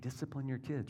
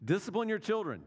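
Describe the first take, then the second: First: It is said quietly. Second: It is said at normal loudness.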